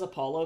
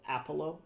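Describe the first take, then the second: First: Said in the usual way. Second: Put-on "Apollo" with a Finnish accent, first syllable stressed. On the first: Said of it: "I like how she says Apollo". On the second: Streamer quoting how the singer says "Apollo", in a Finnish accent. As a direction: imitate a Finnish singer's "Apollo", opening on a flat "a" as in "apple". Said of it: "she has a really intense Finnish accent".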